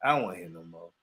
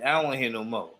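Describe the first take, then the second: First: "I don't wanna hear no more" repeated lower and softer, fading out; a weary second refusal, fading; quieter, trailing off. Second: Said in the usual way. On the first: Retold or imitated. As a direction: let the repeat sink and fade.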